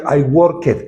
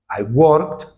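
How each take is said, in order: First: The ending is voiced, adding an extra syllable. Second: The ending is silent, making one syllable. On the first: The speaker calls it wrong. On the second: The speaker calls it right.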